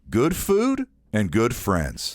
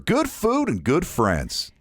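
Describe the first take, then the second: First: It is slower and lower in pitch. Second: It is quicker and higher in pitch. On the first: The speaker calls it right. "Slow it down a little bit lower" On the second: The speaker calls it wrong. "it sounded a little bit creepy"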